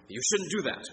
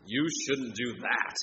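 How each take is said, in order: First: "You shouldn't do that" with "shouldn't" hit high, falling after; stress on SHOULDN'T. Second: "You shouldn't do that" slower, leaning on "You"; stress on YOU. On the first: Preacher demonstrating emphasis, stress on "shouldn't". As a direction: punch "shouldn't". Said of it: "by tone of voice". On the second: Preacher's second reading, weight on "You". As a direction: point at the person with "You". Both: Shown as a demonstration.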